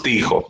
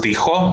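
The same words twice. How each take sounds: First: Said in the usual way. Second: "dijo" wrongly stressed on the final o; stress on last syllable. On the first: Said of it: "Solamente decimos dijo". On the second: Shown as a demonstration. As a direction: punch the end of "dijo", di-JO. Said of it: "y no decimos dijo". ("dijo" mal acentuado en la o final, di-JÓ)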